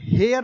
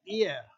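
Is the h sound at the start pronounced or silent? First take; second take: pronounced; silent. First: The word begins with an h sound. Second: The word begins with no h sound. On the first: The speaker calls it wrong. "इसका उच्चारण हेयर नहीं है" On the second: The speaker calls it right. "इसका उच्चारण एयर"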